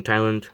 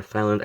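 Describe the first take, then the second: First: Said in the usual way. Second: "Thailand" pronounced like "thigh-land"; alternative pronunciation of Thailand. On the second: Shown as a demonstration. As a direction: start Thailand with a "th" sound, not a "t". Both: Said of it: "I say Thailand".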